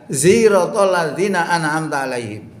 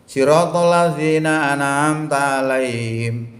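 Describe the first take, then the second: First: The first word begins with a Z sound. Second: The first word begins with an emphatic S sound. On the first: This is another dialect's reading. "dialek lain tidak pakai sod, dibaca za" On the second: This is the Quraysh dialect reading. "pakai sod"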